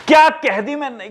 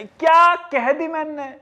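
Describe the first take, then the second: First: Self-praise. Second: Slow, higher, mock-proud repeat; mock-proud, slowly drawn out; smug self-praise. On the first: Pretend. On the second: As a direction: savour your own cleverness. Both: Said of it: "कितना genius हूं मैं".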